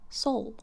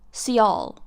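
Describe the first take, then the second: First: The syllable sounds like 'soul'. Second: The syllable sounds like 'see-al'. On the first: This is the proper pronunciation of the name. The speaker calls it right. "Soul is fine" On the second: This is how others mispronounce the name. The speaker calls it wrong. "they have been pronouncing Soulicious, let's say, as Cialicious"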